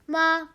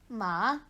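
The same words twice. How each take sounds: First: The pitch stays level throughout. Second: The pitch dips down, then rises. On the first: "One goes straight" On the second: "one goes down and back up"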